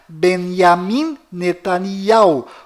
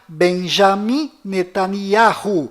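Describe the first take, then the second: First: The first name is said without a 'j' sound. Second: The first name is said with a 'j' sound. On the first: This is how it is said inside Israel. "dentro de Israel, o nome dele é pronunciado" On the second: This is how it is said outside Israel. "fora de Israel, o nome deste primeiro-ministro é pronunciado"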